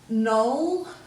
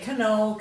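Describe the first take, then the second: First: It starts with an n sound. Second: It starts with a k sound. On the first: This is how it is said today. "that first silent letter" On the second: This is how it was said long ago. "once upon a time we would have pronounced it"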